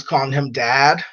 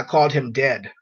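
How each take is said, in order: First: Said in the usual way. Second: "dead" said with a short e, close to "dad"; near-homophone of dad. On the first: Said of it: "he thought I was calling him dad". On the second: Real, not acted. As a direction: say "dead" so it could pass for "dad". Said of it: "I called him dead".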